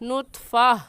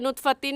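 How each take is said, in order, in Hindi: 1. यह शब्द एक खुले 'a' स्वर से खत्म होता है। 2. यह शब्द 'tin' की आवाज़ से खत्म होता है। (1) "वक़फ़ करते वक्त नुत्फ़ा" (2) "नुत्फ़तिन नहीं कहेंगे"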